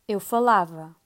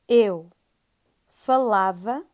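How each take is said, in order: First: It is said a little faster. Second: It is said at a normal pace.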